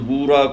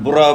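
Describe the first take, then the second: First: The first vowel is long. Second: The first vowel is short. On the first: It means a kind of sugar. The speaker calls it right. "उस बूरा को आपने बुरा बोल दिया।" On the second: It means bad. The speaker calls it wrong. "बुरा का मतलब होता है खराब।"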